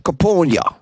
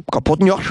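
First: Kapotnia tried again, falling at the end; trying the word again. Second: Kapotnia tried again with a questioning rise; rising try. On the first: Radio host wrestling with a Russian name, falling try. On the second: Radio host unsure of the name, asking with a rise. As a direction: ask Kapotnia like a question, higher. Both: Shown as a demonstration. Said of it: "I can't say this word".

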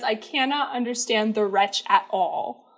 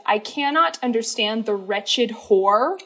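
First: "wretch at all" sung slow, words kept apart; the correct take of the lyric, slow. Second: The misheard take of the lyric, slow. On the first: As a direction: sing the real line slowly. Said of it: "He says". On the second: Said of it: "I thought he was ending that phrase with". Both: Shown as a demonstration.

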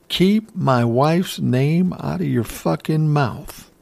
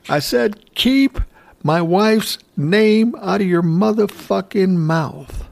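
First: Firm, slow warning, not yet yelling; a slow, stern first warning before the yell. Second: Higher, louder retold yell, slow on the last line. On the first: Retold or imitated. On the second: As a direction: belt it out, peak on keep. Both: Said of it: "yells louder".

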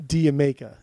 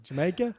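First: "Diamaica" with a clear D and no J; "Diamaica", the English way; English pronunciation. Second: "Jamaica" with an American J, rising; "Jamaica" as a question; plain American Jamaica. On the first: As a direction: say "Diamaica" like "dire maker". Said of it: "the way they say Jamaica sounds like". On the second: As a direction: say "Jamaica" the usual US way. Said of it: "it's not Dire Maker, it's Diamaica". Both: Shown as a demonstration.

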